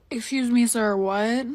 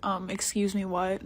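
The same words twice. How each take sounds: First: Put-on taken-aback questioning, rising at the end; exaggerated polite double take; mock disbelief. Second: Understated retold irritation, kept quiet; tight, annoyed. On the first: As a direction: play up being taken aback. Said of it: "But not for real, I was tight". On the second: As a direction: ask it softly, taken aback and not amused. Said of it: "I was tight. I was like".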